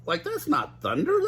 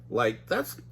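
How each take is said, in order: First: Higher Shaggy take; high moaning Shaggy. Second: Said in the usual way. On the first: Acted. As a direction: moan it as Shaggy. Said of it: "Shaggy moaned". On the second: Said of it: "restart of line".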